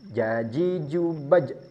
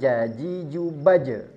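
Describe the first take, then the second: First: The final j ends with no vowel after it. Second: The final j is followed by an added e vowel. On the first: The speaker calls it right. "pantulannya ini jangan disengaja ditambah vokal e" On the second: The speaker calls it wrong. "bukan jaji jubaje"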